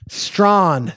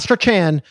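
First: The name is pronounced like 'Strawn'. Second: The name is pronounced like 'Strachan'. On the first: The speaker calls it right. "That's my guy" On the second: The speaker calls it wrong. "not Strachan"

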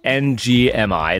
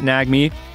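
First: It is said as separate letters. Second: It is said as a single word. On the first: The speaker calls it right. "but it's NGMI" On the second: The speaker calls it wrong. "I don't think you pronounce it NAGME"

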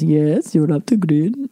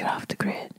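First: It is spoken aloud, not whispered. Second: It is whispered softly.

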